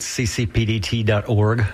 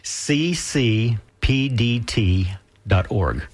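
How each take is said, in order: First: It is said at normal, quicker speed. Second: It is said slowly and carefully.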